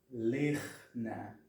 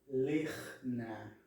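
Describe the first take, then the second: The two takes are said the same way.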